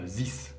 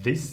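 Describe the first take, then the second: First: The word starts without a 'th' sound. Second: The word starts with a soft 'th' sound. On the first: The speaker calls it wrong. "et pas this" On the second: The speaker calls it right. "bien prononcer le mot this"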